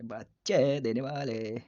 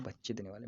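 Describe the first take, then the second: First: बच्चे stretched and loud, then देने वाले drawn out; drawn-out emphasis. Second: Said in the usual way. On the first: Shown as a demonstration. Teacher repeats meaning of viviparous, loudly drawn out. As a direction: lean hard and long on बच्चे.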